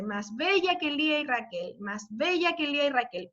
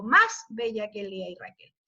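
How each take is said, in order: First: "más bella que Lía y Raquel" with the weight on "bella"; stress on bella. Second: "más bella que Lía y Raquel" with the weight on "más", pitch lower; stress on más. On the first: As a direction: lean on "bella" and pass lightly over "más". (acentuando "bella" en "más bella que Lía y Raquel") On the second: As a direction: open the line by hitting "más". (acentuando "más" en "más bella que Lía y Raquel") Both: Shown as a demonstration. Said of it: "¿Cómo sería la melodía de este verso?".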